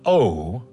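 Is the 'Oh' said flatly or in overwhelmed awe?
flatly. It is said flatly, without awe.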